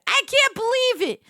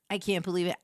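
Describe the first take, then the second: First: Higher and louder disbelief; loud, high can't believe it; exasperated outburst. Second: Said in the usual way. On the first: Real, not acted. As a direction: blurt it out in shock. Repeats line louder and higher.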